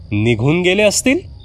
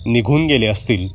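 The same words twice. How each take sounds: First: "निघून गेले असतील?" higher, rising in disbelief; incredulous echo. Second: Said in the usual way. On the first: A narrator's reading. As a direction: repeat her words back, shocked. Narrator echoes her words in disbelief. (आश्चर्याने उंच सुरात प्रश्न)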